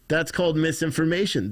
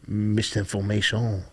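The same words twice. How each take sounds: First: Said in the usual way. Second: "Misinformation" in a lightly put-on French accent, the stress at the end. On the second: Shown as a demonstration. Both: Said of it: "That's how you would say it with a French accent".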